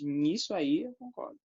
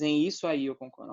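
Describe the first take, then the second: First: "Nisso" said as one word, ni-sso; contracted nisso. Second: "Em isso" said apart as two words, em then isso; uncontracted em isso. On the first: Teacher shows the right contracted form, "Nisso". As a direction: run em and isso together into "Nisso". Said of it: "não, você diz". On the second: Teacher shows the form nobody says, "Em isso" kept apart. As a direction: say "Em isso" separately, the wrong way. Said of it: "Você não diz". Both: Shown as a demonstration.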